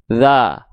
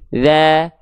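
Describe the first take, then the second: First: The vowel is said plain, without spread lips. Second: The vowel is said with slightly smiling lips. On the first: The speaker calls it wrong. "bukan cuma dibaca seperti ini" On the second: The speaker calls it right. "tapi ada senyumnya sedikit"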